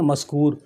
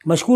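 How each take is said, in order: First: The middle consonant is an s sound. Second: The middle consonant is an sh sound. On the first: The speaker calls it wrong. "हम क्या कहते हैं?" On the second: The speaker calls it right. "मशकूर नाम है।"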